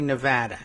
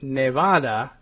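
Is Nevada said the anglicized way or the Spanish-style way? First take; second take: anglicized; Spanish-style. First: It is said with an anglicized vowel sound. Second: It is said with a Spanish-style vowel sound. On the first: This is how English speakers came to say it. "now we all say Nevada" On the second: This follows the name's original language. "it's from the Spanish, uh, so I would think that Nevada would be the proper pronunciation"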